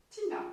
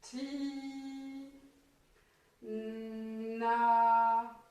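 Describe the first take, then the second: First: Said in the usual way. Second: "Ti, na" with each syllable drawn out on a held note; sounding out syllables. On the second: Shown as a demonstration. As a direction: stretch "Ti", pause, then swell into a long "na". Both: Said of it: "qui va faire avec le I".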